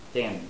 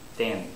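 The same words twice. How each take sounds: First: The th sound has too little air. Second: The same.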